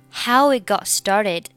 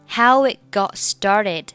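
The two takes are said the same way.

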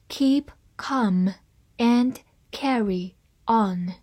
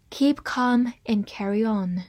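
First: Slowly, with a pause between words; slow reading. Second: Said in the usual way. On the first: Shown as a demonstration. Teacher reads the saying for learners, slow reading. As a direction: read it out slowly, word by word. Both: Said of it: "慢慢来读".

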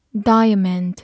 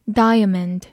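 No difference in how they are said.

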